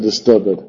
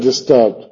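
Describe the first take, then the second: First: The ending is a separate extra syllable. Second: The ending is not a separate syllable. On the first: This is the reading the poem's accent mark requires. "como tiene un acento, sabemos que se pronuncia disturbed" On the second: This is the modern reading. "en inglés moderno se le disturbed"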